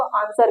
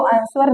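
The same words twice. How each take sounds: First: आंसर said with a silent w, ansar, slightly softer; correct pronunciation of answer. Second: आंसर said with the w sounded, an-swer; wrong pronunciation of answer. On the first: Teacher giving students the right आंसर, silent w. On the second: Teacher showing the wrong way to say आंसर, w sounded. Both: Shown as a demonstration. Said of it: "इसको आंसर नहीं कहते".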